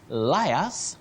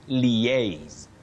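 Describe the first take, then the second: First: The word sounds like 'liars'. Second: The word sounds like 'liaise'. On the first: The speaker calls it wrong. "not to liars that we commonly use locally" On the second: The speaker calls it right. "You say liaise"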